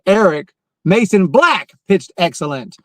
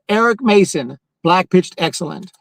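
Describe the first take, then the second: First: Mason Black runs together without a pause. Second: There is a pause after Mason. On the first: The speaker calls it right. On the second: The speaker calls it wrong. "I almost read it like that"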